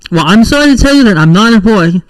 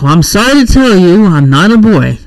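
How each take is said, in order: First: It is said plainly, without a sigh. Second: It is said with an audible sigh.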